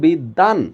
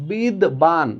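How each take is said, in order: First: The b is dropped and the d is doubled. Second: The b sound is pronounced after the d. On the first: The speaker calls it right. "দ দুইবার উচ্চারিত হয়েছে" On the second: The speaker calls it wrong. "বিদবান না হয়ে"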